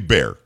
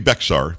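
First: The name is said as one syllable, like bear. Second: The name is said as two syllables, with an x. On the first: The speaker calls it right. "but we say Bear" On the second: The speaker calls it wrong. "Don't say Bexar. Makes you sound silly"

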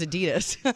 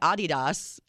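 First: It uses the common everyday pronunciation. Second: It uses the original European pronunciation. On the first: This is how most people say it. "everybody says Adidas" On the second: This is how the brand itself says it. "Adidas is the way you pronounce it"

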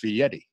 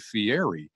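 First: The name's ending rhymes with Eddie. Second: The name's ending does not rhyme with Eddie. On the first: The speaker calls it right. "but it's Fietti" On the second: The speaker calls it wrong. "people look at it and say Fieri"

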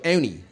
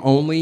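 First: The L sound in the middle is dropped. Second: The L sound in the middle is pronounced. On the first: "You take out the L in only, you've got instant Philadelphia voice" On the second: "Instead of saying only"

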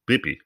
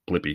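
First: The l sound after the b is dropped. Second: The l sound after the b is pronounced. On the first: A small child is saying the name. "It's Bippi, not Blippi. He doesn't talk like that" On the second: The name is said in its standard form. "not Blippi"

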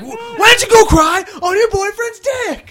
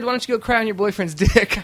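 First: The line is yelled loudly. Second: The line is said at a calm volume.

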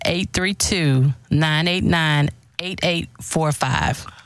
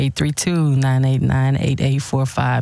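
First: It is said slowly and a little louder. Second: It is said at a normal pace.

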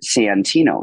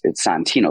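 First: The name is carefully enunciated, vowels made clear. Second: The name is said in a relaxed way. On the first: This is the name as strangers can understand it. The speaker calls it wrong. "now I've started like really like enunciating Santino" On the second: This is the name as family says it. The speaker calls it right. "It's Santino. Like my father is like Santino"

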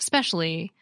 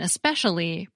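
First: The weak first syllable is left out. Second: The weak first syllable is pronounced.

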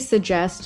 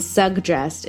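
First: The middle has only a j sound. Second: The middle has a hard g, then j. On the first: "I would just type it out as two J's" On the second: "with the hard G, then the J"

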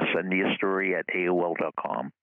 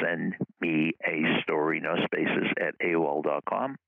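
First: It is said at normal speed. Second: It is said a little slower.

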